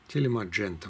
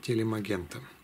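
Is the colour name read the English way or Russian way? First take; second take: English; Russian. First: The name is read in an English way. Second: The name is read in a Russian way. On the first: The speaker calls it right. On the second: The speaker calls it wrong.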